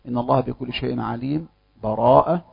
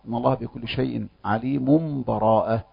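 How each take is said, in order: First: A brief silent stop without breath separates them. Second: The phrases run together with no stop. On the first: "السكت، وهو أن يقف من غير نفس" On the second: "والوجه الثالث الوصل"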